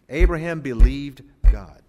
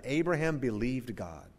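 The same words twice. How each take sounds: First: Loud, word-by-word ABRAHAM BELIEVED GOD; emphatic repeat. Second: Said in the usual way. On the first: Shown as a demonstration. Preacher repeats three words from the New Testament, emphatically.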